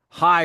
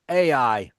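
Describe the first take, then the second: First: The name starts with an h sound. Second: The name starts directly with a vowel. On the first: This is closer to the original Hebrew. "really in Hebrew" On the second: This is the usual common pronunciation. "we'll go with Ai, the pronunciation people usually use"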